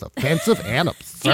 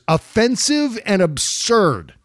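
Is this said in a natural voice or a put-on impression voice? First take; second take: impression; natural. First: It is said in a put-on imitation voice. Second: It is said in the speaker's own natural voice.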